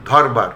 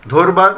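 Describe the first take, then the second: First: ধরবার said dhɔrba, open first vowel, lower with a fall; ɔ-sound version. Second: ধরবার said dhorba, first vowel o, higher; o-sound version. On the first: (ধরবার অ-কারান্ত উচ্চারণে) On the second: (ধরবার ও-কারান্ত উচ্চারণে) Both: Shown as a demonstration. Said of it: "দুরকম উচ্চারণ পেলাম".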